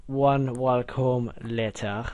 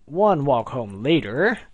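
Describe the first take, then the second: First: Slow, drawn-out time-card narrator; SpongeBob narrator. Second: Said in the usual way. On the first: Shown as a demonstration. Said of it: "I should do that with the SpongeBob thing".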